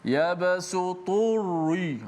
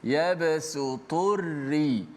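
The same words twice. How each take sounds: First: The r is pronounced heavy and thick. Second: The r is pronounced light and thin. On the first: The speaker calls it wrong. "orang baca dengan tebal ... ditebalkan ra" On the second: The speaker calls it right. "ra itu dibaca dengan baris bawah"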